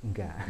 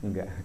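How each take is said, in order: Both takes have the same delivery.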